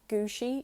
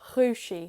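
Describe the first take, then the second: First: The word starts with a hard G sound. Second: The word starts with a soft throaty sound. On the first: The changed form is approximated simply. "you just say it like a G" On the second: The word is in its changed form. "It's like a G in your throat"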